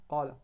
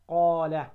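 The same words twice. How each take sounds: First: قال with the "aa" cut short, said softly; wrong demo of قال, quick short vowel; clipped long vowel. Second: قال with the "aa" fully held; clear long vowel. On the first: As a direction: swallow the alif in قال. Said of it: "مش قال". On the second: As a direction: lengthen the alif in قال clearly. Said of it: "أن تقوم إيش؟ بالمد". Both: Shown as a demonstration.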